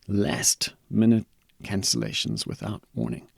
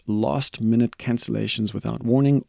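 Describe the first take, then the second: First: It is said with an American accent. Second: It is said with a neutral accent.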